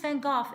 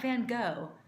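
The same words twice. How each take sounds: First: The name is given a Dutch pronunciation. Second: The name is given an English pronunciation. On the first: The speaker calls it right. "it's Van Gogh" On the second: The speaker calls it wrong. "it's not Van Gogh"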